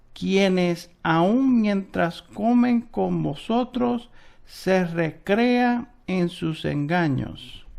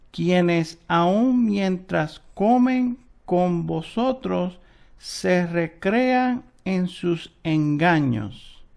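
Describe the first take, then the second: The two takes are said the same way.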